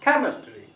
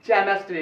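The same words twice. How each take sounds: First: केमिस्ट्री with aspirated k, के raised; k start, stressed. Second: केमिस्ट्री said with ch, as चेमिस्ट्री; mistaken "ch" start. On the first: Teacher answering what to read, stressed k. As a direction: say k not ch, lifting के. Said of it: "क्या पढ़ना चाहिए?". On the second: Teacher quoting a common mistake, ch sound. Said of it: "केमिस्ट्री भी बोल देता है". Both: Shown as a demonstration.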